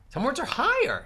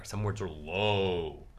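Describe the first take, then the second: First: Lifted way up high; higher pitch. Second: Slow, dropped low voice; low pitch. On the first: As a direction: send the voice up high. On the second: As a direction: sink down low and draw it out. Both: Shown as a demonstration.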